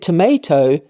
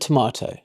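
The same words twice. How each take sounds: First: The word is said with an American accent. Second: The word is said with a non-American accent. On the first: The speaker picked up the habits of people around them. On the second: This is how the speaker normally says it.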